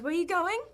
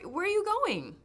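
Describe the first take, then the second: First: The pitch rises at the end. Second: The pitch falls at the end. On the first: "And you guys" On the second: "like we go down"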